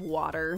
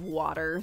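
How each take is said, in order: First: The middle consonant sounds like a soft D. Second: The middle consonant sounds like a soft D.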